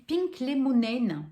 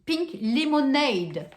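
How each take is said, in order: First: "Pink Lemonade" read slowly in French-accented English; hesitant first reading of "Pink Lemonade"; first try at Pink Lemonade. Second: "Pink Lemonade" said again, slow, a bit higher and louder; deliberate retry of "Pink Lemonade"; corrected Pink Lemonade. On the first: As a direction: sound out "Pink Lemonade" carefully, word by word. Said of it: "Excusez-moi pour mon anglais". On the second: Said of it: "Non, qu'est-ce que j'ai dit?". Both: Shown as a demonstration.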